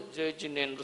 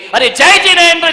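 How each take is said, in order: First: It is said faintly, barely audible. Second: It is said loudly, firmly and smiling.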